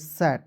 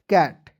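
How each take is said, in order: First: The word begins with an s sound. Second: The word begins with a k sound. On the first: The speaker calls it wrong. "सी का उच्चारण श भी होता है ... जो कि क्या है, गलत तरीका है" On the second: The speaker calls it right. "सी का उच्चारण क के रूप में ही करना है"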